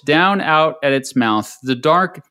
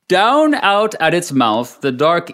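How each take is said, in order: First: It is read in the speaker's ordinary accent. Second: It is read in a put-on early American accent.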